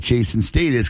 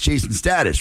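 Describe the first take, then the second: First: The name is said in a British accent. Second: The name is said in an American accent.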